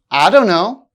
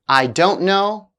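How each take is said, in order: First: The words are blended into a reduced form. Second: The words are said fully and separately.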